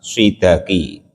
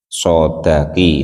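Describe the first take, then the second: First: The first vowel is an 'i' sound. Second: The first vowel is an 'a' sound. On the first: The speaker calls it wrong. "membaca kasroh sodnya" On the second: The speaker calls it right. "itu lebih benar"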